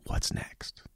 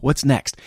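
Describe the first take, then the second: First: Whispered question, barely voiced. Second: Raised, louder and higher question; out loud, insistent. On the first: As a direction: whisper it like an inner nudge. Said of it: "constantly whispering to you". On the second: Acted. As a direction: ask it out loud with urgency. Repeats the whispered question out loud.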